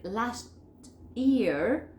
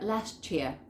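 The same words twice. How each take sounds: First: LAST, a pause, then YEAR; LAST YEAR unlinked, T and Y apart; careful word-by-word LAST YEAR; separate words. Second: LAST YEAR merged as "lashchear"; CH sound joining LAST to YEAR; native assimilation. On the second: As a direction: blend LAST YEAR into one word. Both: Shown as a demonstration. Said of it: "como nativo va a ser".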